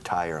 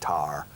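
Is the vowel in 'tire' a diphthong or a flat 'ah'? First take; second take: diphthong; flat ah. First: The vowel glides as a full diphthong. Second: The vowel is a flat, single 'ah' sound.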